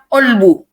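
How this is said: The word begins with a glottal stop. This is how it is said in Egypt and Lebanon. "Mesir dan Libanon itu berbeda. Bilangnya olbu"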